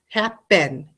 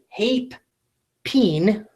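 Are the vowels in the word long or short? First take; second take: Short; Long. First: The word is said with short vowel sounds. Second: The word is said with long vowel sounds. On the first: The speaker calls it right. "Both of these syllables are closed" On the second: The speaker calls it wrong. "I don't say hape, peen, do I? That sounds weird"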